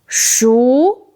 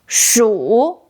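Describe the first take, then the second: First: The syllable is said with a rising tone. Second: The syllable is said with a dipping tone. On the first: It means cooked. "Second tone, 熟 means cooked" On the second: It means mouse. "Third tone, 鼠 means mouse"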